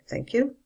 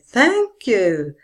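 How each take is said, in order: First: It ends with a casual low rise. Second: It ends with a grateful fall.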